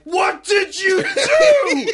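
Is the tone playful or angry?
angry. It is said in a furious, yelling tone.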